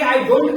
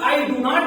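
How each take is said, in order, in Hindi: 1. शब्द मिलाकर एक संक्षिप्त रूप (कॉन्ट्रैक्शन) में बोले जाते हैं। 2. हर शब्द अलग-अलग और पूरा बोला जाता है।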